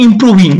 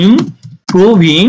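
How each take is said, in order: First: Said in the usual way. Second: "improving" slowly split, pausing after im before proving; syllable by syllable. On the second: Shown as a demonstration. Teacher modelling the word for learners, syllable by syllable. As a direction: stretch "improving" out in separated syllables.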